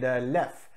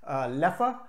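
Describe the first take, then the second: First: The name is said with a French pronunciation. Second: The name is said with a Dutch pronunciation. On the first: "which is the French pronunciation" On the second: "which follows the Dutch pronunciation"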